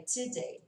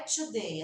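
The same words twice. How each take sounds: First: Today with a reduced first syllable; corrected pronunciation. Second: Today said as "tchu-day"; wrong pronunciation. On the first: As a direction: say today as "tuh-day", first vowel weak. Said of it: "Não é today". (today com a primeira vogal reduzida, "tidêi") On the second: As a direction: say today with a full "oo" in the first syllable. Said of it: "Se eu fico corrigindo meu aluno". (today pronunciado errado, "tudêi") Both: Shown as a demonstration.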